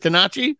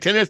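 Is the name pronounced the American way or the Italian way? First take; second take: Italian; American. First: The name is said with an Italian pronunciation. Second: The name is said with an American pronunciation. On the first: "I think that's the Italian way to say tennis" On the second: "We say tennis"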